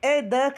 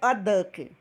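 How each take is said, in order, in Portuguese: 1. O artigo soa como o nome da letra 'ay'. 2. O artigo é um som 'uh' curto e fraco. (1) "A mesma pronúncia do A lá do alfabeto" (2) "ou de E"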